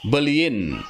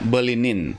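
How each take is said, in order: First: The ending follows the vowel with no n. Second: An n sound comes before the ending.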